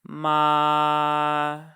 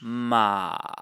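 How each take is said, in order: First: The pitch stays high and level throughout. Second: The pitch dips down, then rises slightly. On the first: "we're starting fairly high in my register and we're staying at that level" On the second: "This is the dipping tone"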